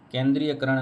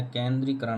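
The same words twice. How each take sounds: First: केंद्रीयकरण with extra ya before करण; teacher showing faulty केंद्रीयकरण, ya sounded; wrong form केंद्रीयकरण. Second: केंद्रीकरण with री straight into करण; teacher modelling केंद्रीकरण, no ya; correct form केंद्रीकरण. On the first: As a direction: say केंद्रीयकरण, adding य after री. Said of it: "नहीं होता है". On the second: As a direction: say केंद्रीकरण with no य sound. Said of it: "केंद्रीकरण होता है". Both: Shown as a demonstration.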